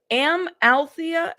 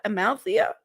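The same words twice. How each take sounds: First: Amalthea slowly split, higher, as am-al-THEE-a; deliberate, drawn-out Amalthea; careful sounding out. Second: Amalthea said in one go, rising at the end; quicker, questioning Amalthea; name run together. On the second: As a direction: say Amalthea smoothly as a-mal-THEE-a, checking it. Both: Real, not acted. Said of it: "I think I said it correctly".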